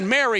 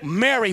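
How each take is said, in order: First: The name is said plainly, without warmth. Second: The name is said warmly and lovingly.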